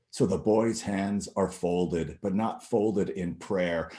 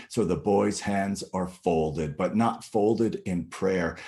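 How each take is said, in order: The two takes are said the same way.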